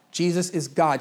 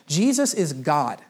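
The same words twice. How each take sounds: First: Said in the usual way. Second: Slow, weighty "Jesus is God" with falling end; slow emphatic declaration. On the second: Shown as a demonstration. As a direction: let each word land slowly. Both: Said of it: "repeated declaration".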